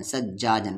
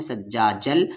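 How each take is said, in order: First: Said in the usual way. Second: सज्जाजल ending on l where n would be; non-stop merged form. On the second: Shown as a demonstration. Teacher showing reading on without stopping, सज्जाजल merged into l. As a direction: merge the end of सज्जाजल into a held ल. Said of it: "नहीं रुकने की सूरत में".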